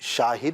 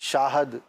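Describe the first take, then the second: First: The second syllable has the vowel 'i'. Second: The second syllable has the vowel 'a'. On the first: The speaker calls it right. "तो शाहिद है" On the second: The speaker calls it wrong. "उस खित्ते का ये problem है कि वो इन इस तरह के अल्फाज में ज़ेर के बजाय ज़बर लगाते हैं"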